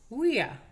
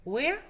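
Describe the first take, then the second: First: "Where" as loud falling wi-a; "ia" diphthong drill. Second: "Where" as loud rising we-a; "ea" diphthong drill. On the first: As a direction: model "Where" with i gliding into schwa, no R. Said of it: "y el I A". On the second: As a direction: model "Where" with e gliding into schwa, no R. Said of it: "que son el E A". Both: Shown as a demonstration.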